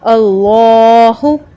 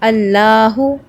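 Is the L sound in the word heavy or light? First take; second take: heavy; light. First: The L sound is heavy and full. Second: The L sound is light and thin. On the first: The speaker calls it right. "हैवी pronounce करेंगे उस नाम को" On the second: The speaker calls it wrong. "उसको आपने इस तरह से नहीं पढ़ना"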